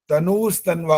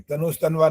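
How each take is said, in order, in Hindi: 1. n के बाद वाला स्वर लंबा है। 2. n के बाद वाला स्वर छोटा है। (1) "तनुस तनवा होता है ये, न में बड़े ऊ की मात्रा है ये" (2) "तनुस तनवा नहीं होता"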